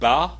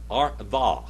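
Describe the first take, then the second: First: It begins with a hard b sound. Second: It begins with a soft v sound. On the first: "is either for a strong B"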